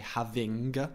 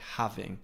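First: The final G sound is clearly pronounced. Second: The final G sound is weak or dropped. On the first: The speaker calls it wrong. "So we don't say having" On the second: The speaker calls it right. "We don't pronounce the G strongly at the end"

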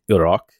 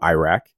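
First: Iraq is said with an Arabic-style pronunciation. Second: Iraq is said with an English-style pronunciation. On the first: "the correct way to say Iraq" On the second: "as opposed to Iraq"

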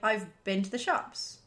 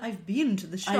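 First: The word been sounds like bin. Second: The word been sounds like bean. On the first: "Some people pronounce the word bean bin. Like" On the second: "Rather than"

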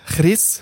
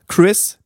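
First: It is said the common Swiss way. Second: It is said with a careful English pronunciation.

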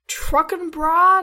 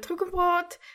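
First: It is said with an American accent. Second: It is said without an American accent.

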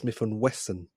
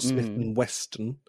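First: The surname has no t sound before the n. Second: The surname has a t sound before the n. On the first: The speaker calls it right. "It's Smith and Wesson" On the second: The speaker calls it wrong. "It's not Smith and Weston"

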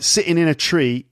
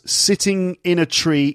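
First: The middle t sounds are dropped. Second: The middle t sounds are clearly pronounced.

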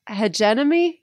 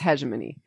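First: The middle has an extra 'nem' sound. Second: The middle has a single 'gem' sound. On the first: The speaker calls it wrong. "I said hegenemy in like a college seminar or something and somebody corrected me" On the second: The speaker calls it right. "So I think it's hegemony"

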